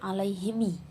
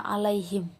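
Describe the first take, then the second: First: The word ends with an added i vowel. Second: The word ends on a bare m sound.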